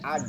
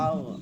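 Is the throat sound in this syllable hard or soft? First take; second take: hard; soft. First: The throat sound is hard and pushed out. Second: The throat sound is soft, held in the throat. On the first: The speaker calls it wrong. "আগ হইলে আগ, এটা বের হয়ে আসে" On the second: The speaker calls it right. "আও নরম হয়, এর জন্য এটা গলার মধ্যে থাকে"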